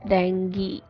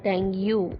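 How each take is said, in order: First: The word ends with an 'ee' vowel sound. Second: The word ends with an 'oo' vowel sound. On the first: The speaker calls it right. "It's in English language called E" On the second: The speaker calls it wrong. "So it's not U sound in the end of the disease"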